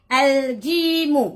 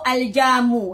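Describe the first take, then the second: First: The vowel after j is a long i. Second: The vowel after j is a short a. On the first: The speaker calls it right. "kita kata jim ialah jim" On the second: The speaker calls it wrong. "Kadang-kadang mereka sebut al-jamu"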